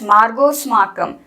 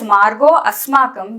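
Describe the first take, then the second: First: The words are fused, with no middle vowel. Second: The words are separate, with the vowel kept. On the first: The sound combination rule has been applied. "which means you have done the sandhi" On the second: The sound combination rule has not been applied. "you have chosen not to do the sandhi and are reading it separately"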